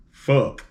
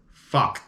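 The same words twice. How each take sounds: First: Fuck with a rounded oh vowel, foke; new pronunciation. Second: Fuck with an open ah vowel, fahk; old pronunciation. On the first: Podcaster demoing the new way to say it, fuck as foke. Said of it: "now it's turned into". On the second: Podcaster demoing the old way to say it, fuck as fahk. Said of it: "instead of using this pronunciation for this word". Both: Shown as a demonstration.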